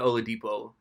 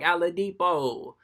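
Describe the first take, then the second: First: The name is said with its usual sounds. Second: The name is said with altered sounds. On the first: The speaker calls it right. "you could have said Oladipo" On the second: The speaker calls it wrong. "[name] has to mispronounce Victor Oladipo's name"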